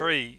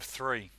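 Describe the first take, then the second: First: It begins with a plain t sound. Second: It begins with a th sound. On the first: It imitates a Maltese speaker's accent. "my grandfather used to say tree as well. His Maltese" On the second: It is the standard pronunciation. "instead of three"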